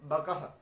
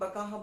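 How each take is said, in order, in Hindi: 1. आख़िरी h से पहले छोटा स्वर आता है। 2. आख़िरी h से पहले लंबा स्वर आता है। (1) "ब क अह बकह" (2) "आपकी मात्रा तो नहीं है कि बकाहा बोलूं"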